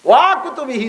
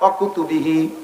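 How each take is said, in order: First: The opening 'wa' is stretched out long. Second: The opening 'wa' is short and joined on. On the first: The speaker calls it wrong. "ওয়া কুতুবিহি না" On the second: The speaker calls it right. "ওয়ারেও টানবেন না"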